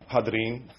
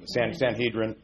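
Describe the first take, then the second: First: The word is pronounced the Hebrew way. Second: The word is pronounced the usual English way. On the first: "if you say it in Hebrew" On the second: "that's the way we kind of say it in English"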